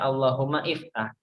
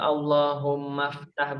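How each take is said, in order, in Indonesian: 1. Vokal awal iftah jelas diucapkan. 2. Kata-katanya menyambung tanpa vokal awal.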